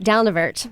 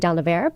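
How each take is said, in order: First: The final T sound is clearly pronounced. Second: The final T sound is left silent. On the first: It follows the word's Scottish origin. The speaker calls it right. "so we want to pronounce that T" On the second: It follows the local French habit. The speaker calls it wrong. "we want to say Down-the-Vert"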